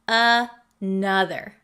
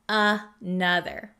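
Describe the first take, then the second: Both takes have the same delivery.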